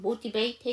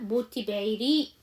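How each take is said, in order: First: The final -ed ending is left out. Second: The final -ed ending is clearly pronounced. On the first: "ed 발음 정확하게 안 하셔도 되죠" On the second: "td로 끝나는 발음에 ed를 붙이면 ed죠"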